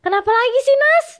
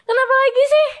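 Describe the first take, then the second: First: Mild snap. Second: Put-on high, loud annoyed snap at the crying girlfriend; irritated snap. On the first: Retold or imitated. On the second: Woken by her crying, he snaps at her loudly. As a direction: bark it out, fed up and sleepy. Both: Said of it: "agak nyentak gitu kan".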